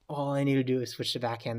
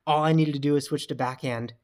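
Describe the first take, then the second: First: Said in the usual way. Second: All I needed to do was switch to backhand, said louder and pressed; emphatic regret. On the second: Real, not acted. Player scolding himself, emphatic louder regret. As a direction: lean on needed in frustration. Regretting wrong throw choice.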